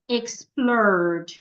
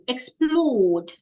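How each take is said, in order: First: American accent, with the r sound heard. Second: British accent, without the r sound heard. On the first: "if an American person is pronouncing this word, you hear something like explored" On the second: "if it is a British person, the O there changes"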